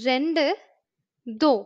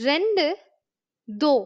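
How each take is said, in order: Both takes have the same delivery.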